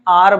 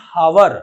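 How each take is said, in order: First: It starts with a vowel, one syllable. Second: It starts with an h sound, two syllables. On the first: "modern technique में आर बोलते हैं" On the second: "बच्चे इसको गलत पढ़ते हैं"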